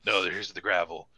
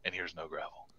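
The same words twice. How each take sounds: First: Gravelly voice. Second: Said in the usual way. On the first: Shown as a demonstration. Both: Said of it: "Hear the difference?".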